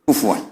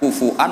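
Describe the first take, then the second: First: The middle has a w sound. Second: The middle has a glottal stop. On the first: This is how the Quraysh say it. "yubaddilunal hamzata wawan ba'da dhammi" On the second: This is the common reading with hamzah. "kuf'an ... bil hamzah"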